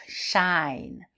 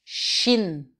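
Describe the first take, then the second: First: Shine with an open, gliding "ai" diphthong; teacher models Shine as a long open "ai" glide. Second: Shin with a short, closed "i"; short closed vowel. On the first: Teacher to French learners, modelling Shine with an open diphthong. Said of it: "c'est une diphtongue, c'est ouvert". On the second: Teacher contrasting for learners, Shin with a short closed vowel. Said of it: "c'est bref et c'est plus fermé". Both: Shown as a demonstration.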